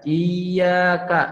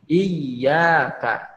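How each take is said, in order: First: Slow iyyaka with a single ya, the tasydid dropped; wrong reading. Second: Slow iyyaka with the ya pressed and doubled; correct reading. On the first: Teacher again shows the wrong iyyaka to avoid. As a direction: read iyyaka without the doubled ya. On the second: Teacher again shows the correct iyyaka. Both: Shown as a demonstration.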